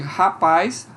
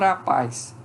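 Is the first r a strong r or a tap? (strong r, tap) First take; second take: strong r; tap. First: The first r is a strong r, not a tap. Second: The first r is a single quick tap. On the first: "em vez de rapaz" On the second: "pode aparecer um rapaz"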